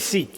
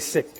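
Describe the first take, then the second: First: The word has a long ee vowel. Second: The word has a short i vowel. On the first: The speaker calls it wrong. "You don't say seek" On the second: The speaker calls it right. "you say sick"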